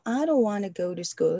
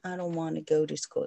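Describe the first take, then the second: First: Want to is pronounced fully as two words. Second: Want to is reduced and blended into wanna.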